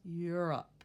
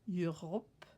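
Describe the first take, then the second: First: The O vowel almost disappears, ending like 'up'. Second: The O vowel is said as a clear O. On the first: "the O almost disappears" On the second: "say it more as an O sound"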